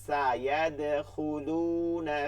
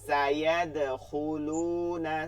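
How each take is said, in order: Both takes have the same delivery.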